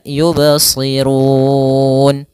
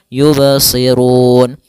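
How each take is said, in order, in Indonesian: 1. Vokal panjang di akhir dibaca empat harakat. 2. Vokal panjang di akhir dibaca dua harakat. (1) "Boleh empat harokat" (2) "Boleh dua harokat"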